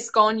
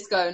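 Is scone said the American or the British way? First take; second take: British; American. First: Scone is said with a British pronunciation. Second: Scone is said with an American pronunciation. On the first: "I say scone" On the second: "you say scone"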